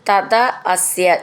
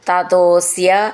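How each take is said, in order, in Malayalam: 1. രണ്ടു വാക്കുകളും വേറെ വേറെയായാണ് പറയുന്നത്. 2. രണ്ടു വാക്കുകളും ചേർത്ത് ഒന്നാക്കി പറയുന്നു.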